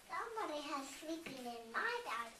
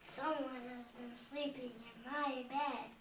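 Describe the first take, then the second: First: It is said in Mama Bear's voice. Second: It is said in Papa Bear's voice.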